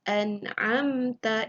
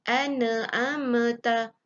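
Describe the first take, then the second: First: The n is cleanly stopped with no vowel. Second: A vowel is added after the n sound. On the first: The speaker calls it right. "itu yang dimaksudkan dengan izhar" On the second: The speaker calls it wrong. "pun tak boleh"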